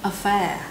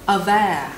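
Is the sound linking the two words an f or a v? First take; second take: f; v. First: The words are linked with an f sound. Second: The words are linked with a v sound. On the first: The speaker calls it wrong. "rất có thể bạn sẽ nối thành affair" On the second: The speaker calls it right. "hai từ này sẽ nối vào thành aware"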